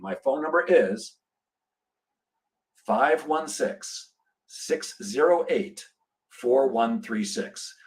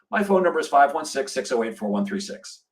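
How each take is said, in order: First: The number is said very slowly. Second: The number is said very fast.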